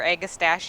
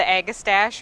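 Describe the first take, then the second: First: "Agastache" with an added ee ending; alternative pronunciation. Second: "Agastache" ending on a stash sound; first pronunciation variant. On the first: Gardener offering viewers the other way to say the plant name, "Agastache" as ag-uh-STASH-ee. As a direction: say "Agastache" as ag-uh-STASH-ee, four syllables. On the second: Gardener showing viewers one way to say the plant name, "Agastache" as ag-uh-STASH. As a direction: say "Agastache" as ag-uh-STASH, no final vowel. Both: Shown as a demonstration. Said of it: "depending on how you pronounce it".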